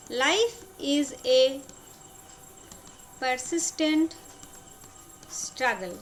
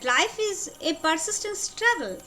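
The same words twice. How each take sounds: First: Broken up with long pauses; slow dictation. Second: Said in the usual way. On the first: Shown as a demonstration. Teacher repeating the general rule for students, slow dictation.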